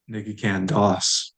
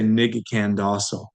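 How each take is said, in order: First: Das said ending on the S, short O dropped; correct form without O. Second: Daso said with the short O kept at the end; wrong form with final O. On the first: Teacher gives learners the right form, Das without the final O. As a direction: say Ni Ge Ken Das, cutting the final O. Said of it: "We delete the short O". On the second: Teacher shows learners the wrong form, the final O in Daso kept. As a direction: say Ni Ge Ken Daso, keeping the final O. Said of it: "But we don't say". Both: Shown as a demonstration.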